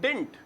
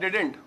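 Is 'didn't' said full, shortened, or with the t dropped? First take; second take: shortened; full. First: It is squeezed into one syllable ending in t. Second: It is said with two syllables, did-dent. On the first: "बड़ा ही short करके" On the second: "did not को मिला के क्या बोलते हैं हम लोग?"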